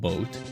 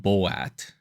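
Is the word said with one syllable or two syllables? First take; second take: one syllable; two syllables. First: The word is said as one syllable. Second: The word is stretched into two syllables.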